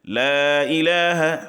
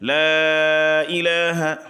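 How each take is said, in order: First: The vowel of 'la' is held briefly. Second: The vowel of 'la' is drawn out longer. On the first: "ये कसर हो गया" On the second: "तवस्सुत करेंगे"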